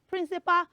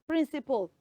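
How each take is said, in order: First: The final syllable is said as a full 'pal'. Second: The final syllable is reduced, like 'pull'. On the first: The speaker calls it wrong. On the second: The speaker calls it right.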